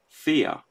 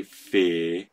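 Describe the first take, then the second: First: "fear" as fee-yuh in two beats; two-syllable pronunciation. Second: "fear" as one long vowel, feer; one-syllable pronunciation. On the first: Objector giving their own "fear", split into two syllables. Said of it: "I say fear". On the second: Objector quoting the rejected "fear", one long syllable. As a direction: say "fear" in a single drawn-out beat. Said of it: "But I don't say fear". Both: Acted.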